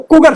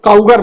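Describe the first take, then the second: First: The first syllable sounds like 'coo'. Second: The first syllable sounds like 'cow'. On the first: The speaker calls it right. "कुगर सही" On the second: The speaker calls it wrong. "एक आदमी को काउगर बोल रहा था"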